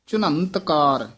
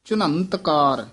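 First: A nasal sound comes before the t. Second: The same.

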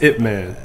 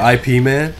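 First: Ip is said as a single short word. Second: IP is spelled out as two separate letters. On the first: The speaker calls it right. "It's Ip Man" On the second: The speaker calls it wrong. "Did you really just say IP Man?"

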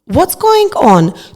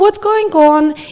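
First: It sounds like a worried, concerned question. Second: It sounds like a light, casual greeting. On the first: Something seems to be wrong with the person. "якщо ви зміните свою інтонацію, тоді вона може звучати геть по-іншому" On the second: It is a greeting that expects no answer. "прийшли на роботу і вітаєтеся зі своїми колегами"

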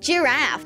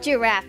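First: Giraffe is said with a native English accent. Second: Giraffe is said with a Swedish accent. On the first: The speaker calls it right. "it's giraffe" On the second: The speaker calls it wrong. "not giraffe"

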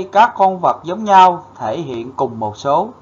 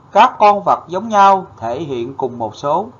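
No difference in how they are said.

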